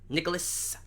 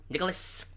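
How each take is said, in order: The two takes are said the same way.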